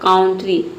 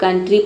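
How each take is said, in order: First: The first vowel sounds like 'ow' in 'cow'. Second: The first vowel sounds like 'uh' in 'cup'. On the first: The speaker calls it wrong. "लेकिन काउंट्री नहीं पढ़ते हैं" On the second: The speaker calls it right. "यहाँ पे कंट्री पढ़ते हैं"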